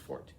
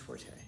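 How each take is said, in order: First: The word is said as one syllable. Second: The word is said with two syllables. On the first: The speaker calls it right. "It's pronounced fort" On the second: The speaker calls it wrong. "It's not pronounced forte"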